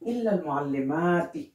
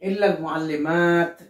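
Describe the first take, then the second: First: The last word ends with an added i vowel. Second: The last word ends on a bare t sound. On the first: "এখানে জের হবে" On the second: "সাকিন হওয়ার সময় আমরা মাত সাকিন দিয়ে দিলাম"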